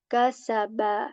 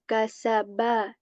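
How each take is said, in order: Both takes have the same delivery.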